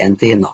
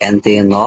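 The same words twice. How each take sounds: The two takes are said the same way.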